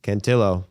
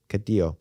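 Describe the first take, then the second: First: Cantillo said with a clear n, kan-TEE-yo; Cantillo, the n sounded before the t; corrected name. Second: Castillo said with an s, kas-TEE-yo; Castillo, the s sounded before the t; the name Castillo as first read; first name take. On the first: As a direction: repeat the name Cantillo the way he goes by it. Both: Shown as a demonstration. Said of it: "He just goes by Cantillo".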